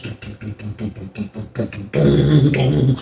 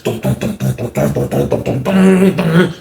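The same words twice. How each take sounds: First: Thump out steps climbing, quietly; soft vocalized stomping; imitated footsteps. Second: Heavy vocalized stomps, rising at the end; thudding dums that build; imitated powerful footsteps. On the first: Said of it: "go up the steps like bad dudes". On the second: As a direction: pound out the climbing steps. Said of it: "Rock went up the steps like this".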